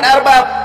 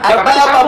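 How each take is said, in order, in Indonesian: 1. Kata ini diakhiri dengan bunyi 'ab' biasa. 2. Kata ini diakhiri dengan bunyi 'am' tambahan. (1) "bukan arbab" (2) "Harusnya dibaca arbabam"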